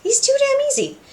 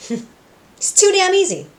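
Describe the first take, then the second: First: Even higher, squeakier gloat; hammed-up villain gloat pitched way up. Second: High, slow, smug villain gloat; a high drawn-out gloat of satisfaction. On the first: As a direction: push the smug gloat up into a giddy squeal. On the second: Retold or imitated. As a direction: savour it like a scheming villain. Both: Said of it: "Alistair's just like".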